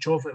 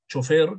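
First: The stress falls on the first syllable. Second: The stress falls on the last syllable. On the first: "como palabra grave" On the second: "como palabra aguda"

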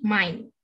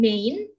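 First: The vowel sounds like 'ai' as in 'eye'. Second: The vowel sounds like 'ei' as in 'day'. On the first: The speaker calls it right. "tapi mine" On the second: The speaker calls it wrong. "Bukan main"

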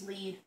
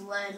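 First: The word does not sound like the metal. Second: The word sounds like the poisonous metal. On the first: It names the item being fetched. The speaker calls it right. "I think it's lead" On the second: It names the poisonous metal. The speaker calls it wrong. "like lead poison"

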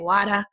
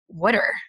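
First: The word is said in a Boston accent. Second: The word is said in a New Jersey accent. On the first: "I moved to Boston and they actually say wada" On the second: "in New Jersey, they say water"

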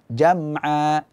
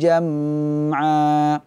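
First: The nasal m sound is kept short. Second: The nasal m sound is held long. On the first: The speaker calls it right. "Akan tetapi dibaca jam'a" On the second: The speaker calls it wrong. "jangan dipanjangkan gunnahnya"

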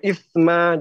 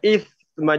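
First: The middle consonant is stopped, not flowing. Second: The middle consonant flows with continuous air. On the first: The speaker calls it wrong. "jangan isma, jangan gitu ya" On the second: The speaker calls it right. "Alirkan dia"

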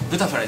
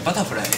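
First: The word begins with the syllable 'bu'. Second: The word begins with the syllable 'ba'. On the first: The speaker calls it wrong. "ブタフライじゃなくて" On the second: The speaker calls it right. "じゃなくてバタフライ"

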